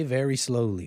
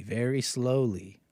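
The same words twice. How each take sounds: First: Said in the usual way. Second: Stretched out, very slowly drawn. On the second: Shown as a demonstration. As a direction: let very slowly crawl out, word by word. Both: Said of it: "means to play very slowly".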